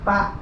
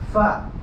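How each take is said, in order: First: It starts with a p sound. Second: It starts with a breathy f sound. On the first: The speaker calls it wrong. "Bukan pa" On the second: The speaker calls it right. "Adanya udara yang keluar cukup banyak"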